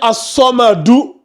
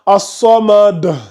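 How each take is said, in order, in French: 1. Le mot se termine par une voyelle courte u. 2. Le mot se termine sur la consonne d. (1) "Normalement, c'était As-Samadu" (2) "sa dernière voyelle devient un soukoun"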